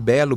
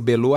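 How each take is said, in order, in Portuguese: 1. A sílaba tônica está na primeira sílaba. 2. A sílaba tônica está na última sílaba. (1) "Eu prefiro falar Belo" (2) "pode ser Belô também"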